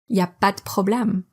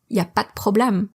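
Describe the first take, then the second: First: The opening il n'y is dropped. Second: The opening il n'y is dropped.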